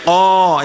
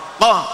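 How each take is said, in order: First: The vowel is held for two beats. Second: The vowel is cut short after one beat. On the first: "itu kan panjang" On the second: "itu pendek"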